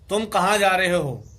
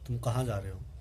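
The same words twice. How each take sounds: First: It is said high and loud. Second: It is said low and very softly.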